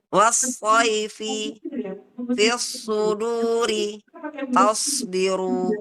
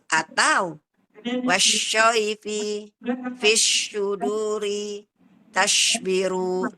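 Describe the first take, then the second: First: The s-sound is heavy and thick. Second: The s-sound is pronounced like sh. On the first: The speaker calls it right. "Nah, begitu ya, Bun" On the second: The speaker calls it wrong. "jadi terbacanya dia jadi shin ya"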